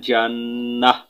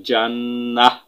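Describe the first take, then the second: Both takes have the same delivery.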